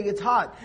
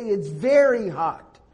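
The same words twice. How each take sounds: First: Said in the usual way. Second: Slow down and lean on "very" in "very hot"; stretched-out stress on "very", for emphasis; emphatic. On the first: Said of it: "if it's hot, you say". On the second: Shown as a demonstration. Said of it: "if you're trying to emphasize".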